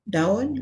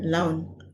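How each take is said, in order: First: The word starts with a D sound. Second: The word starts with an L sound. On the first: This is the standard Malay form. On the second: This is the Hokkien-adapted form.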